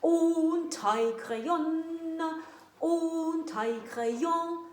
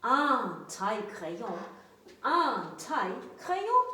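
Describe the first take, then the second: First: "Un taille-crayon" said slow and singsong; wrong pronunciation. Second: "un taille-crayon" said plainly and carefully; correct pronunciation. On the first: Teacher modelling a mistake before correcting. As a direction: sing out "Un taille-crayon" slowly. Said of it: "ce n'est pas correct". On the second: Teacher giving the correct form. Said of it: "On dit". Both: Shown as a demonstration.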